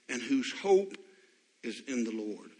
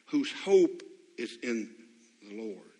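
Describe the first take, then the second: First: Said in the usual way. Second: Hope leaned on, each word slowed, the Lord dropping away; slow emphatic repeat of hope; slow stress on hope. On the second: Shown as a demonstration.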